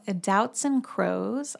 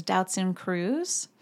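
First: "Kroes" said like "crows"; usual pronunciation. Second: "Cruz" said with an "oo" vowel; alternative pronunciation. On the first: Introducing the beautiful model, "Kroes" said like "crows". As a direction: say "Kroes" to rhyme with "rose". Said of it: "also heard her name pronounced". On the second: Giving the other version of the name, "Cruz" with "oo". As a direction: say "Cruz" to rhyme with "lose". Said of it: "pronounced too as Doutzen Cruz". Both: Shown as a demonstration.

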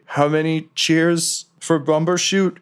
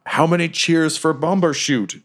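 First: Slow, higher sentry call; a sentry calling the password from the fog; guard's challenge. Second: Slow, higher sentry call; guard's challenge. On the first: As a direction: call out the passcode challenge slowly. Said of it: "they'll say". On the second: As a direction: call out the challenge slowly into the fog. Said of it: "and they, they". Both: Acted.

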